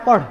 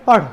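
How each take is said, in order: First: The last consonant is a curled-back tongue flap. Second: The same.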